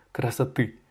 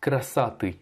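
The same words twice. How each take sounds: First: Красоты stressed on the last "TY"; final-syllable stress. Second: Красоты with a long stressed middle "SA"; imitated wrong stress. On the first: Shown as a demonstration. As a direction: land the stress on the end of Красоты. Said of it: "sur la dernière syllabe". (Красоты accentué sur la dernière syllabe) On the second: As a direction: say красоты slowly as kra-SA-ty. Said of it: "Tu dis красоты". (красоты accentué à tort sur « sa »)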